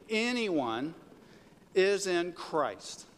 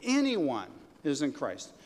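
First: Anyone rising, is in Christ slow; stress on anyone. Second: Anyone leaned on, sentence falling slowly; stress on Anyone. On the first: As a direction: lead the crowd, slow on is in Christ. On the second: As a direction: land firmly on Anyone. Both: Shown as a demonstration. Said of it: "say it with me".

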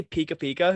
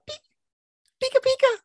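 First: Said in the usual way. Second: Very high, slow squeaky cry; Pikachu voice. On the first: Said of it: "Does he even just say". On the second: Acted. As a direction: squeal it way up like the mouse. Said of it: "It's really high pitched".

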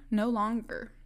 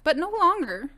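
First: Said in the usual way. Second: Higher and louder on "longer"; firm emphatic "but no longer". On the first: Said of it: "repeated quieter". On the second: Real, not acted. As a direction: insist hard on "no longer". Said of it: "emphatic denial".

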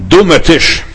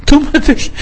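First: Said in the usual way. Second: Put-on much higher, childlike "Dummer Tisch"; a childish pout at the table, pitched far up; child scolding a table.

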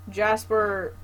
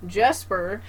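First: Jasper said with an a, falling; first try, Jasper with a broad a; wrong name. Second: Jesper said with an e, rising as a correction; self-correct to Jesper with an e; corrected name. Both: Shown as a demonstration.

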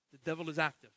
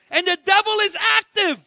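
First: Hushed repeat. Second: Loud declaration. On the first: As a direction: drop "The devil is active" low and soft. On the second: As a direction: shout "the devil is active", high and loud. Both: Acted. Repeated line, loud then hushed.

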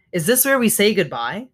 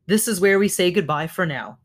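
First: "goodbye" lifted in a rising question. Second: Settled answer, falling through "for now"; gentle statement. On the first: Gosling asking his mother at parting, questioning rise on "goodbye". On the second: Mother answering her gosling, falling tune on "goodbye for now". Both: A narrator's reading.

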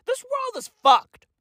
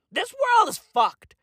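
First: 이 세상은 망했다고 소리치듯; exasperated shout. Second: Said in the usual way. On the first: Real, not acted.

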